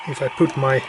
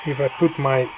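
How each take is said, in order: Both takes have the same delivery.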